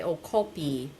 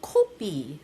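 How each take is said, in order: First: "kopi" said with an American accent; Americanized "kopi", casual and unstylized; American-style pronunciation. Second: "kopi" said slowly the Korean way; slow, deliberate Korean-style "kopi" with a p for the f; Korean pronunciation. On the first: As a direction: say "kopi" as an American would, in an everyday voice. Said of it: "I mean, an American would say". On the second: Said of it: "You have to say it like a Korean". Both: Shown as a demonstration.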